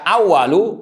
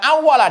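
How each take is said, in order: First: The word ends with a u vowel. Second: The word ends with an a vowel. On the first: The pen was the first thing created. "kalau dibaca awalu" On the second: When the pen was first created, it was spoken to. "dibaca awala dengan fathah"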